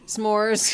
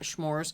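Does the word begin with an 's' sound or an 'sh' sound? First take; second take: s; sh. First: The word begins with a plain 's' sound. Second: The word begins with an 'sh' sound. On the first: The speaker calls it right. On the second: The speaker calls it wrong. "not schmores"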